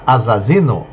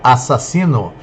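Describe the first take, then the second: First: The middle consonants are buzzed like z. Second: The middle consonants are hissed like s. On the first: "senão ia virar assassino" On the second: "usa dois S"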